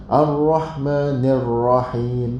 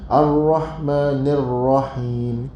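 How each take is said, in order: No difference in how they are said.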